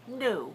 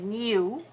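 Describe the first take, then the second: First: No y sound comes before the vowel. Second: A y sound comes before the vowel. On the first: This is the American way of saying it. "Americans tend to say new, new, without the E" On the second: This is the British way of saying it. "British tend to say new with an E in front of it"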